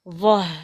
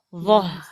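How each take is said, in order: First: The final h sounds light and thin. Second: The final h sounds light and thin.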